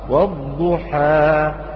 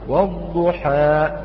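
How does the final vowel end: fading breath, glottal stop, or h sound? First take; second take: fading breath; glottal stop. First: The final long vowel simply fades with the breath. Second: The final long vowel ends in a glottal stop. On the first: The speaker calls it right. "تنتهي بانتهاء الهواء والضحى فقط" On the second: The speaker calls it wrong. "البعض يهمز هذا الحرف فيقول والضحى، أوقفت الصوت في مخرج الهمزة"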